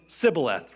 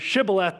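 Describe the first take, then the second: First: The word begins with an s sound. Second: The word begins with an sh sound. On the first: The speaker calls it wrong. "they were saying sibboleth" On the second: The speaker calls it right. "They couldn't say shibboleth"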